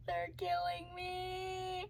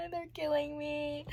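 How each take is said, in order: First: Higher, slower, much softer whimper; tearful, fading. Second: High, slow whimper; tearful. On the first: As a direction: let it die away in tears. Second take, softer. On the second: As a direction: whimper it near tears. First take. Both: Real, not acted.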